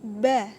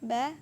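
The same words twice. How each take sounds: First: The syllable is pushed out with heavy force. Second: The syllable flows out lightly without extra force. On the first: The speaker calls it wrong. "Tidak boleh seperti ini bacaannya" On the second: The speaker calls it right. "cukup menganu saja, mengalir saja"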